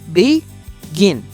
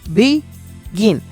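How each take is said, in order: No difference in how they are said.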